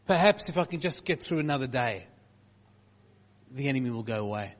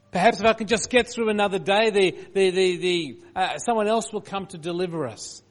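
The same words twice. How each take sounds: First: Said in the usual way. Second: Higher, louder desperate pleading; desperate plea. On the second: Retold or imitated. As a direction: cry it out in desperation. Voicing besieged people's desperation.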